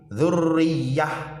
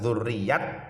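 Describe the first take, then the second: First: The word ends with an h sound. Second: The word ends with a t sound. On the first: The speaker calls it right. "suaranya ha" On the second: The speaker calls it wrong. "bukan dzurriyat"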